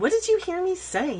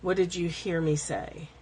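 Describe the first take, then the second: First: It sounds irritated and defensive. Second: It sounds calm and even. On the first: The speaker feels accused and is pushing back. The speaker calls it wrong. "you can't say it with a tone like" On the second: The speaker is openly checking for a misunderstanding. The speaker calls it right. "you're not going to have a tone anyway"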